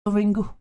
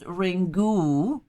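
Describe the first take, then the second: First: The final vowel is a soft reduced schwa. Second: The final vowel is a full long oo. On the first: The speaker calls it right. "the U should be pronounced as softly vocalized as schwa" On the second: The speaker calls it wrong. "in the American trailer for Ringu, pronounces the word as Ringu, which is O O"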